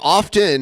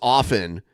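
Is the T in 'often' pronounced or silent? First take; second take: pronounced; silent. First: The T sound is clearly pronounced. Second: The T sound is silent. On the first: "but pronouncing it often has become common" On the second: "the T in often is traditionally silent, pronounced often"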